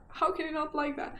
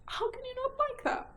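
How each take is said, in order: First: Said in the usual way. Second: Delighted squeal. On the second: Real, not acted. Gushing over a spooky book title.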